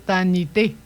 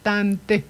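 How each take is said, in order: First: An extra i vowel is inserted between consonants. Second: No extra vowel is inserted between consonants. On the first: The speaker calls it wrong. "On ne dit pas tanité" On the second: The speaker calls it right. "c'est tante"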